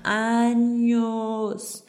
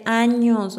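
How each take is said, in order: First: Años stretched very long for emphasis; drawn-out años. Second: Años said with extra force; stress on años. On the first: Speaker stressing the years it took her, años drawn out. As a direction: hold the vowel of años far longer. Repeats the word, hugely drawn out. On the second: Speaker admitting how long discipline took her, stress on años. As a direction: punch the word años. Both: Real, not acted.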